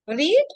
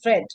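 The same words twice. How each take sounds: First: The vowel is long, rhyming with seed. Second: The vowel is short, rhyming with bed. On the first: It is the present tense form. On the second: It is the past tense form.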